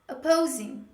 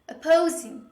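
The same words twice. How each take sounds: No difference in how they are said.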